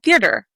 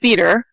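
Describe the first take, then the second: First: The word is said with an added R sound. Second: The word is said without an added R sound. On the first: This is how the speaker says it. "I realized I am adding an R" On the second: Someone else says it this way. "He says theater"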